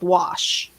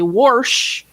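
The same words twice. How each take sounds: First: It is said with a standard general pronunciation. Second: It is said with a Pennsylvania regional pronunciation. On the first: This is the usual pronunciation elsewhere. "instead of wash" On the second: This is how the speaker said it growing up. "growing up in Pennsylvania and then moving, I used to say wash"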